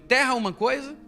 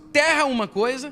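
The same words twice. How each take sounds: First: It is said in a normal speaking voice. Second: It is said in a put-on preacher voice.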